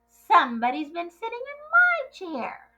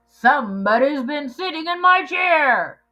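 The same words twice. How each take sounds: First: It is said in a medium-sized voice. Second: It is said in a great big giant voice.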